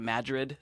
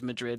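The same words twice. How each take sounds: First: It is said with an Americanized pronunciation. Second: It is said with a Spanish pronunciation. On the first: "They'll pronounce it a little bit differently" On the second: "there's Madrid in Spain"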